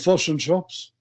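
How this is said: It is said in a New Zealand accent. The speaker calls it wrong. "this Kiwi who goes into a shop and he goes"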